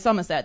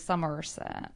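First: Non-rhotic British English, with the R dropped. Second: Rhotic American-style English, with the R pronounced.

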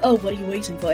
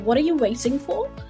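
First: The question sounds offhand and casual. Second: The question sounds sincere and earnest.

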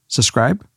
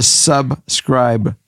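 First: The b sound in the middle is dropped. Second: The b sound in the middle is pronounced. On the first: The speaker calls it wrong. "Dad, there's a B in it" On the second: The speaker calls it right. "There you go"

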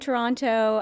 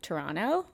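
First: The second T is clearly pronounced. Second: The second T is dropped. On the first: This is how outsiders expect to hear the name. "I try to pronounce the second T because I feel like that's how you guys hear it" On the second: This is how locals say the name. "In Toronto, we say Toronto"

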